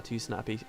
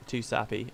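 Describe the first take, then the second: First: "snappy" said with an n, the slip before the fix; quick misreading "snappy" instead of sappy; stumbled word "snappy" with the extra n. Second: "sappy" said cleanly with no n, the fix; self-correction "sappy" said carefully; corrected word. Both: Shown as a demonstration. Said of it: "uh, too sappy".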